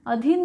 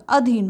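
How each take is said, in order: First: अधीन said as "aa-dheen", long first vowel; mistaken form. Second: Said in the usual way. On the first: Shown as a demonstration. Teacher rejecting the common mistake, अधीन with long first aa. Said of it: "अधीन नहीं होता". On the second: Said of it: "अधीन होता है".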